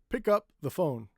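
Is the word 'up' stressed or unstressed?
stressed. The word 'up' is stressed along with 'pick'. The speaker calls it right. "We say"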